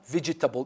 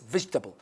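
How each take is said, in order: First: All four syllables are pronounced fully. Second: One syllable is dropped, leaving three. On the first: The speaker calls it wrong. "not vegetable" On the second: The speaker calls it right. "No, it's vegetable"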